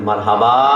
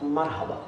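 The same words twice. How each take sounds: First: The word is said louder, at raised volume. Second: The word is said softly, at low volume. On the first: "এবার আমি একটু বাড়াই" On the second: "volume আমি আসতে বলেছি"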